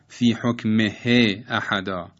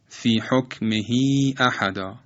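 First: The vowel after the h is kept short. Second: The vowel after the h is lengthened. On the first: The speaker calls it wrong. "غلط است که تلفظ کنیم" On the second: The speaker calls it right. "کسره ه تبدیل به ای میشه، اشباع میشه"

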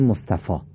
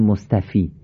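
First: The word ends with a long 'ah' vowel. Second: The word ends with a long 'ee' vowel. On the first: The speaker calls it right. "میگیم مصطفی، آ میخونیم، ای رو نمیخونیم" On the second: The speaker calls it wrong. "ما نمیگیم مصطفی"

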